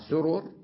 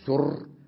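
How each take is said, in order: First: The two r sounds are said separately. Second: The two r sounds merge into one. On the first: The speaker calls it right. "فلا بد أن نلفظها كما لفظناها" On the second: The speaker calls it wrong. "ولا يصح أن تقول سر وذل وجد بالإضغام"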